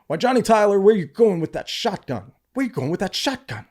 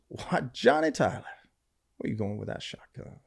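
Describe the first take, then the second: First: Much higher and louder, panicked; the wrong read, frightened and shouted; alarmed. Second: Amused, unruffled gunslinger calling out; cool as a cucumber, nothing alarms him; Doc Holliday's cool delivery. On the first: Shown as a demonstration. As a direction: blurt it out in mock alarm. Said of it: "saying it completely, like, alarmed". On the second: Retold or imitated. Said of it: "he looks over and goes".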